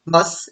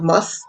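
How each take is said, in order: First: "must" said as mus', final t dropped; softened word ending. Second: Said in the usual way. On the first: Shown as a demonstration. Teacher shows the Antiguan form, "must" with no final t. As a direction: leave the t off "must". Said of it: "ends of the words kinda soften". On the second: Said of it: "instead of must".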